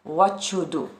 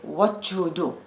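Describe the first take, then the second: First: A ch sound joins the first words. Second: The same.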